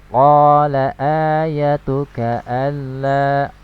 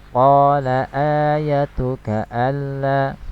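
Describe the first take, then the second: No difference in how they are said.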